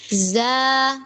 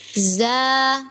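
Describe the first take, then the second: First: The syllable sounds thin and relaxed. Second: The syllable sounds thin and relaxed.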